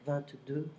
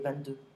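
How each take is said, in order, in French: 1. Le nombre est dit lentement et avec soin. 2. Le nombre est dit vite et de façon décontractée. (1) "I'm saying it very slow" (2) "many French can say"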